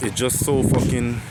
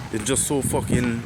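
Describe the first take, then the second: No difference in how they are said.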